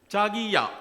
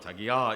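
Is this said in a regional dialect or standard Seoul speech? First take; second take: regional dialect; Seoul speech. First: It is said in a regional dialect accent. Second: It is said in standard Seoul speech. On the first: The speaker calls it wrong. "이렇게 하면 안 돼" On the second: The speaker calls it right. "서울말로"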